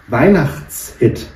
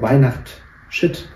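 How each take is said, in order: First: It is split as Weihnachts plus Hit. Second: It is split as Weihnacht plus Shit.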